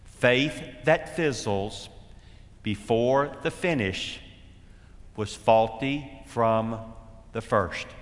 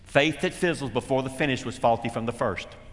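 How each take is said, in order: First: It is said more slowly. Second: It is said at normal speed.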